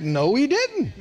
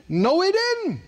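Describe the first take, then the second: First: Said in the usual way. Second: "No, he didn't" pitched much higher and firmer; higher insistent repeat. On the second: Shown as a demonstration. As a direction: hit it again higher to insist.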